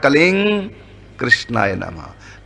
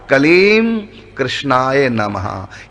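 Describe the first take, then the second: First: The first word ends in ng, linked onward. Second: The first word ends with closed lips, separately. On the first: The words are joined together. "जल्दी जल्दी बोलेंगे दोनों को जोड़कर" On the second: The words are kept apart without joining. "अलग अलग बोलेंगे"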